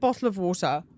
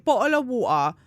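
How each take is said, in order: First: It is said in the speaker's everyday pronunciation. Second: It is said in an exaggerated, stereotyped pronunciation. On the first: This is how the speaker really says it. "I pronounce it" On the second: This is how the audience wants to hear it. "You want me to say"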